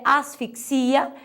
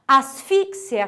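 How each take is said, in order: First: Asfixia said slowly, as-fik-SI-a; Portuguese stress. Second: Asfixia said slowly, as-FIK-sia; Spanish stress. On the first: Teacher giving the Portuguese counterpart, asfixia stressed on SI. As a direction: lean on the final I of asfixia. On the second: Teacher listing Spanish words, Asfixia stressed on FIX. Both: Shown as a demonstration. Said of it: "difere a sílaba tônica".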